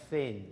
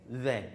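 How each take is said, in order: First: "Thin" with a hissed, unvoiced TH; voiceless TH. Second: "Then" with a buzzing voiced TH. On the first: Teacher contrasts the unvoiced th in "Thin" for students. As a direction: start "Thin" with an unvoiced th, no buzz. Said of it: "No voice, okay". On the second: Teacher contrasts the voiced th in "Then" for students. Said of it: "which is the voiced of these two". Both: Shown as a demonstration.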